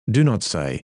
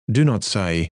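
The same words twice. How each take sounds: The two takes are said the same way.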